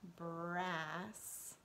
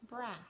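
First: The word is said slowly and drawn out. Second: The word is said at normal reading speed. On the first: "then I'm reading it slowly" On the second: "then I'm reading it the way we would typically read it if we see it in a book, with fluency"

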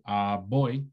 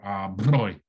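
First: The consonant is a plain b sound. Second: The consonant is a trilled lip vibration. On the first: "B goes to B or br" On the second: "or br"

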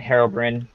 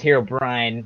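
First: The last syllable rhymes with 'bin'. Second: The last syllable rhymes with 'brine'. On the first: The speaker calls it wrong. "not Herobrine" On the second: The speaker calls it right. "I think technically is Herobrine"

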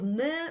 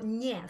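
First: The N consonant is hard. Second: The N consonant is soft. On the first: "Instead of ne" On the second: "It indicates a soft consonant"

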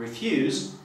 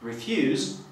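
First: The stress is on the second syllable. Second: The same.

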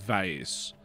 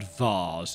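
First: The word has an American pronunciation. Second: The word has a non-American pronunciation. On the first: "how Americans pronounce it vase" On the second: "the word vase"

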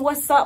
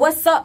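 First: It sounds like a threatening challenge to fight. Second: It sounds like a flirtatious come-on.

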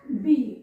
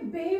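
First: The vowel sounds like a long 'ee'. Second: The vowel sounds like 'eh'. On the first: The speaker calls it right. "इथे ईचा उच्चार आहे ई" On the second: The speaker calls it wrong. "आता इथे बे म्हणू शकतो का आपण, तर नाही"

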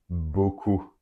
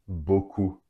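No difference in how they are said.

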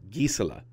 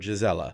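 First: The first G is hard, like in geese. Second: The first G is soft. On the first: The speaker calls it right. "It sounds like the word geese" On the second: The speaker calls it wrong. "Her name is not pronounced Gisela"

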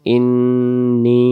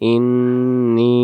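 First: The final vowel is drawn out long. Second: The final vowel is drawn out long.

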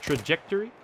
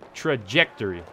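First: The word is said quickly and hurriedly. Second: The word is said slowly and carefully. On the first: The speaker calls it wrong. "I guess I was just trying to say it really fast" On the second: The speaker calls it right. "There we go"

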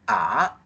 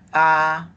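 First: The pitch rises from middle to high. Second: The pitch stays high and level.

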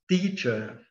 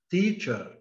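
No difference in how they are said.

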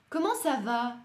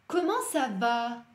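First: It is quicker, with a natural tune. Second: It is slow, with sounds exaggerated. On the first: "давайте побыстрее, пытаюсь немножко естественнее произнести" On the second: "утрирую, немножко делаю акцент на звуки"

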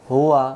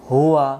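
No difference in how they are said.

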